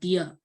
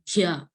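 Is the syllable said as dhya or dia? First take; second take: dia; dhya. First: The syllable has a plain d before ia. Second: The syllable has an aspirated d before ya. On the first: The speaker calls it wrong. "not dia" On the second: The speaker calls it right. "it will be pronounced like dhya"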